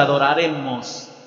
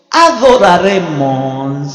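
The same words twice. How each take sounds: First: Said in the usual way. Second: "adoraremos" drawn out slow and loud; weighty, slow "adoraremos"; stressed slow word. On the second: Shown as a demonstration. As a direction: stretch "adoraremos" syllable by syllable, loud. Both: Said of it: "quiero hacer énfasis en ese versículo y en esa palabra".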